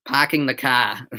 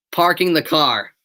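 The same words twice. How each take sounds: First: Boston accent, r's dropped: "parking" as "pahking", "car" as "cah". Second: Said in the usual way. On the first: Shown as a demonstration. Streamer teasing chat in a Boston accent. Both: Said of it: "Boston accent".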